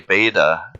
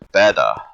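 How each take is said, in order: First: The first vowel sounds like 'ay'. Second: The first vowel sounds like 'ee'. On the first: This is how people usually say it. "they usually say beta almost like an A" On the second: This is how the Greeks said it. "I think the Greeks pronounced it beta"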